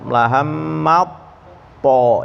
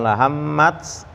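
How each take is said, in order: First: The t merges straight into the next sound. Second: The t is released with an audible breath. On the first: The speaker calls it right. "tapi langsung masuk ke po" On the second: The speaker calls it wrong. "bukan lahammats"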